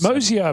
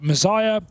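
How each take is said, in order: First: The name is said as 'Mosier', as spelled. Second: The name is said like the word 'Messiah'. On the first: This is how the spelling suggests it is said. The speaker calls it wrong. "we've been calling him Mosier because that's how it looks" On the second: This is how the player himself says it. The speaker calls it right. "I asked him for an official pronunciation"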